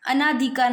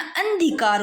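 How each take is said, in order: First: अनाधिकार with a long naa; अनाधिकार as a-naa-dhi-kaar; wrong long aa. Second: अंधिकार with n straight into dhi; अंधिकार as an-dhi-kaar; no aa after n. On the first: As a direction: say अनाधिकार as the form to avoid, naa held. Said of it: "अनाधिकार नहीं होता है". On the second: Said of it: "अना नहीं होता". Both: Shown as a demonstration.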